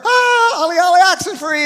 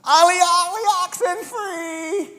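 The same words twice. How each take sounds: First: Very high, loud, fast shouted game call; cheering shout. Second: Put-on kids' game call. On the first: Retold or imitated. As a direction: yell it like the crowd adores him. Crowd cheering Jesus, game call. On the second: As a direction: call it across the playground like a kid. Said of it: "It was this".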